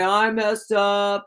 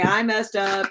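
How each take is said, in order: First: Slow, drawn-out sorry ex; sheepish ex. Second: Said in the usual way. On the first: Retold or imitated. Reader imitating the ex's late-night drunk dial, slow and sheepish. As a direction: drag it out like a guilty drunk caller. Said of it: "and he's gonna say". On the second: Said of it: "He's gonna say".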